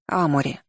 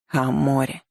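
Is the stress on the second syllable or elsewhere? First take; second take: elsewhere; second syllable. First: The stress is not on the second syllable. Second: The stress is on the second syllable.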